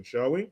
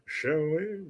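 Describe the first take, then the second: First: Said in the usual way. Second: Put-on drawn-out, soft British accent after a gasp; hammed-up British, softly stretched; playful British accent. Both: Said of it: "I just love to do that accent".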